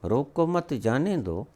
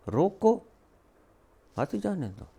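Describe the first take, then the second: First: रोको मत run together, then जाने दो falling; रोको मत as one unit, जाने दो as the next; grouped as रोको मत. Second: रोको high and rising, a break, then the rest softer and falling; high रोको alone, softer phrase after the pause. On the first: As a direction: join मत to रोको, then let जाने दो drop. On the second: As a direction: stop after रोको, then run बात ही जाने दो together. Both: Shown as a demonstration. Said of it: "अर्थ बिल्कुल विपरीत".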